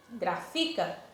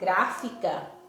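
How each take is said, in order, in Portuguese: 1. A sílaba tônica não é a primeira. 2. A sílaba tônica é a primeira. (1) "eu não estou pronunciando corretamente" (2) "eu pronunciei o grá, que está acentuado, como sílaba mais forte"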